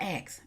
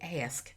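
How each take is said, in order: First: The k sound comes before the s. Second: The s sound comes before the k. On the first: This is the speaker's old country way of saying it. The speaker calls it wrong. "it's not ask" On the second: This is the way the producer wanted it said. The speaker calls it right. "He says ask"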